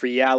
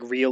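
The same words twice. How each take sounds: First: It is said as two syllables, Spanish 're-al'. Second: It is said as one syllable, English 'real'.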